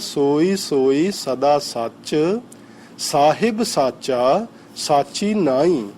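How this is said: The pause comes right before 'sahib'.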